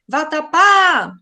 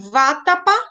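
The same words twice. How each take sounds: First: The stress is on the last syllable. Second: The stress is on the first syllable. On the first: The speaker calls it right. "a última sílaba, ela se estende" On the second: The speaker calls it wrong. "seria proparoxítona"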